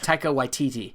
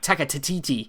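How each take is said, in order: First: The surname begins with a W sound. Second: The surname begins with a T sound. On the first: The speaker calls it right. "It's Taika Waititi" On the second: The speaker calls it wrong. "I always like to add T to his second, his last name"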